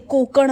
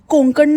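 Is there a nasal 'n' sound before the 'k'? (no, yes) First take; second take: no; yes. First: No nasal sound comes before the k. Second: A nasal n sound comes before the k. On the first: The speaker calls it right. "कोकण असतं ते" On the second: The speaker calls it wrong. "कोंकण कोंकण कोंकण नसतं ते"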